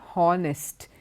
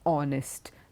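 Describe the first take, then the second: First: The word begins with an audible H sound. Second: The word begins directly with the vowel sound. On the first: The speaker calls it wrong. "is not honest" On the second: The speaker calls it right. "it is honest. The H is silent"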